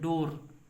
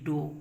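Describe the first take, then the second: First: The word ends with a pronounced r sound. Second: The word ends without any r sound. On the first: The speaker calls it wrong. "इसका pronunciation ऐसे करते हैं डोर, एकदम गलत है" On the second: The speaker calls it right. "इसका pronunciation केवल और केवल डो होता है"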